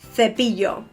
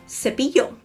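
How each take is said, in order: First: It is said in a Castilian Spanish accent. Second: It is said in a Latin American Spanish accent. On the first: "I'm talking again Castilian Spanish" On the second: "Latin American"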